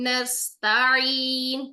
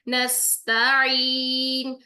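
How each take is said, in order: Both takes have the same delivery.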